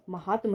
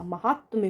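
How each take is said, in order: First: महात्म ending in "-tma"; wrong, no y. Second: महात्म्य ending in "-tmya"; correct y ending. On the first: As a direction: say महात्म as "ma-haat-ma". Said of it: "महात्म नहीं होता". (महात्म के अंत में य नहीं) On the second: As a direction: sound the y after m in महात्म्य. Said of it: "महात्म्य होता है". (महात्म्य के अंत में य) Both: Shown as a demonstration.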